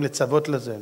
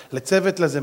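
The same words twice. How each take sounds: First: לצוות read as "letsavot", with a-o vowels; mistaken reading. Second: לצוות read as "letsevet", with e vowels; corrected reading. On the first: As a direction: say לצוות as "le-tsa-VOT". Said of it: "יש הרבה תורים קוראים לצוות לזה". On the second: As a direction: say לצוות as "le-TSE-vet". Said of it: "זה שטויות". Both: Shown as a demonstration.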